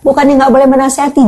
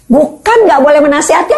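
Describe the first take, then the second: First: Faster, with boleh punched; quick restatement, weight on boleh; stress on boleh. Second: Bukan raised and leaned on, rising; correcting a misunderstanding, lean on Bukan; stress on bukan. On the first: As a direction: rush it and land on boleh. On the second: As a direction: hit Bukan, not the rest. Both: Shown as a demonstration. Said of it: "jangan salah tangkap lagi dong".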